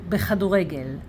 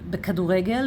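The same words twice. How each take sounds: First: The consonant after 'be' is a rasping kh. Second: The consonant after 'be' is a hard k. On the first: The speaker calls it right. "we don't put here dagesh" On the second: The speaker calls it wrong. "many people will say בכדורגל because they don't speak Hebrew uh, very well"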